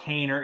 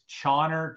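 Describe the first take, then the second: First: The name begins with a hard k sound. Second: The name begins with a ch sound. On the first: The speaker calls it wrong. "It's not Kaner" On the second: The speaker calls it right. "it's Chawner"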